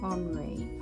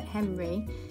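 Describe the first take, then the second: First: The name is said the French way, 'on-ree'. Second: The name is said like English 'Henry'. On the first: The speaker calls it right. "you actually pronounce his name Henri" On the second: The speaker calls it wrong. "You don't pronounce it Henry"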